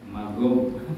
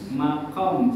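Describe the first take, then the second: First: The middle consonant is a G sound. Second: The middle consonant is a K-like sound. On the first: This is how Yemenis read it. "Makom jadi magom" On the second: This is the original pronunciation. "Makom jadi magom"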